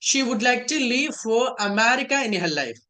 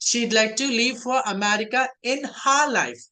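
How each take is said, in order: First: She would is said as two full words. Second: She would is shortened into one syllable. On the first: "full form లో చెప్తే" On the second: "short form లో చెప్తే"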